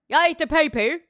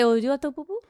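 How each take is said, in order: First: It is said in an Australian accent. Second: It is said in a vaguely French accent.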